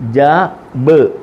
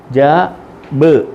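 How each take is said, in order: The two takes are said the same way.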